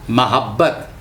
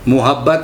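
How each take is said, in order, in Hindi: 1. पहला स्वर छोटी 'a' की आवाज़ है। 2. पहला स्वर 'a' की आवाज़ नहीं है। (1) "उसमें ज़बर से आया है" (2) "मुहब्बत नहीं"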